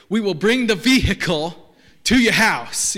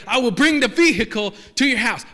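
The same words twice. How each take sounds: First: "vehicle" said as "vee-HICK-el", slow and louder; mimicking car dealer. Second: "vehicle" said as "vee-HICK-el", punched out louder; hammed-up ad guy saying "vehicle" as vee-hick-el; mimicking car dealer. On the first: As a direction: drag out "vehicle" as vee-hick-el like the local ad guy. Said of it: "he always pronounced it like this". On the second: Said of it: "and he's like".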